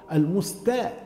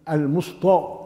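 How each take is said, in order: First: "المستا-" with thin t and front a, "al-mustae"; light ta. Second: "المسطى" with heavy t and dark vowel, "al-musto"; ta made emphatic. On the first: Teacher correcting the mistake, thin ta. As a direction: keep the t of "المستا-" pure. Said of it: "تاء". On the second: Teacher imitating the mistake, ta turned into emphatic ta. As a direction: thicken the t in "المسطى". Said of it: "التاء يجعلها طاء". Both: Shown as a demonstration.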